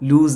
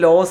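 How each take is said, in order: First: The vowel sounds like 'oo', rhyming with 'news'. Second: The vowel sounds like 'oh', rhyming with 'dose'. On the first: The speaker calls it right. "ലൂസ് എന്നാണ്" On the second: The speaker calls it wrong. "അത് ലോസ് എന്നല്ല കേട്ടോ ഉച്ചരിക്കുക"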